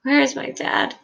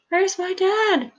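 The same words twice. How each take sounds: First: Put-on high, panicked child's cry, not at full volume; narrator's contained scream. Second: Put-on very high, frantic child's cry; escalating panicked scream, held back in volume. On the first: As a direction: cry out for a missing father, pitched high. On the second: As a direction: wail it desperately, pitched way up. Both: A narrator's reading. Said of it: "Charlie is screaming".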